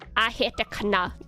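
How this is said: Sounds are clipped, with a short 'I' word.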